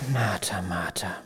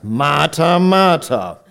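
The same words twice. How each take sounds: First: It is said gently and warmly. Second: It is said in a reproachful, scolding tone.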